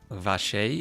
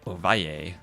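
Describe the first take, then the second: First: The name is said in Argentinian Spanish style. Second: The name is said in Colombian Spanish style. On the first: "if you pronounce it Argentinian Uruguayan style" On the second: "if I pronounce it Colombian style"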